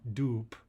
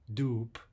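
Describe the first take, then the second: No difference in how they are said.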